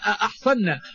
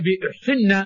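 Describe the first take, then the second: First: The first vowel is a. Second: The first vowel is u. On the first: "بفتح الهمزة" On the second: "بضم الهمزة"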